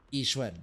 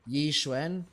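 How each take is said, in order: First: The opening Y sound is weak, almost just I. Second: The opening Y sound is strong and clear. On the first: "less emphasis? ... is it just the I?" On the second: "more emphasis on the Y"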